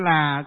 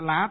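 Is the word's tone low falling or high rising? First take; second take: low falling; high rising. First: The word has a low falling tone. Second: The word has a high rising tone. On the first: The speaker calls it right. "Chứ là chứ" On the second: The speaker calls it wrong. "viết dấu sắc thì đây thầy đọc lại lá thôi"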